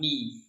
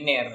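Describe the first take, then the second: First: The vowel sounds like a full i. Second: The vowel sounds like a mid e. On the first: The speaker calls it right. "bukan ni" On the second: The speaker calls it wrong. "jadinya ner bukan ni"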